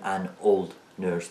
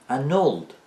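First: Put-on "an old nurse" with "an" and "old" kept apart; separated words. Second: Put-on "an old" higher and slow, as "a nold"; linked n-sound. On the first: Teacher showing what we don't say, words separate. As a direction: say "an", then "old nurse", unlinked. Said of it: "نمیگیم an old nurse". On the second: Teacher showing how we say it, n linked to old. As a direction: glue the n of "an" onto "old". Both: Shown as a demonstration.

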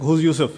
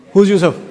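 First: Low, restrained questioning; mock suspicion, held in check; mildly upset father. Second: Loud, abrupt demand; mock interrogation of a small child; upset father. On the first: Father asks about his daughter's classmate, mildly upset. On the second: Father questions his preschool daughter about a boy, upset and loud. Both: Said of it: "you're getting upset".

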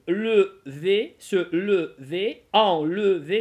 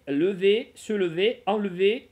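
First: "lever, se lever, enlever" slow and loud, the э clearly voiced; sounded schwa. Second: "lever, se lever, enlever" quicker, the э not dwelt on; lighter schwa. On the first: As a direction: stretch the "le" in each of "lever, se lever, enlever". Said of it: "я её произношу". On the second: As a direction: move briskly through the "le" of "lever, se lever, enlever". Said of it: "можно нет, можно не произносить". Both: Shown as a demonstration.

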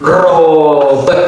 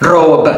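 First: Robe stretched long and slow; drawn out. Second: Said in the usual way. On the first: Shown as a demonstration. Teacher models robe for learners, drawn out. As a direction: hold the vowel of robe before the final b. Draws the word out.

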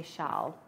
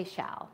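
First: "shall" said as shahl, open ah; non-American pronunciation. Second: "shall" with the short a of "shall we"; American pronunciation. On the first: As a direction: say "shall" with a broad ah vowel. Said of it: "We don't say shall here". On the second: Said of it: "And we also say shall". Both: Shown as a demonstration.

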